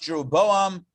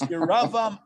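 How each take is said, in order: First: The name has its English pronunciation. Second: The name has its Hebrew pronunciation. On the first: "in the English it's pronounced" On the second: "in the Hebrew"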